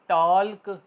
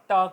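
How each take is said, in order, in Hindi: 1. 'k' से पहले 'l' की स्पष्ट ध्वनि है। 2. 'k' से पहले 'l' की कोई ध्वनि नहीं है। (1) "टॉल्क नहीं होगा" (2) "टॉक होगा"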